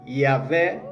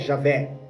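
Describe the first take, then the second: First: The name starts with an 'ee' sound. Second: The name starts with a 'zh' sound. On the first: The speaker calls it right. "é I" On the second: The speaker calls it wrong. "a letra J não existe, então não é Jesus, não é Jeová, não é Javé"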